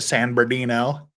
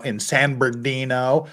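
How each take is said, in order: First: San Bernardino as San Ber-dino, rising; San Bernardino with a clipped middle; local pronunciation. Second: San Bernardino with the r dropped, Ber-dino; San Bernardino said quickly, b-er-dino; local pronunciation. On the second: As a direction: say San Bernardino the local way, middle syllable swallowed. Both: Shown as a demonstration. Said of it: "as you're supposed to pronounce it".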